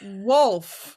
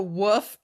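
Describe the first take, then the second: First: The word is said with a clear L sound. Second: The word is said without an L sound. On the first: The speaker calls it right. "It's a wolf" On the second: The speaker calls it wrong. "it's not a woof"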